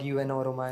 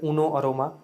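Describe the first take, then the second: First: The first part is said as letters. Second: The first part is said as one word. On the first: The speaker calls it wrong. "Not यू एन aroma" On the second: The speaker calls it right. "इसको प्रोनाउंस करते हैं एज उनो अरोमा"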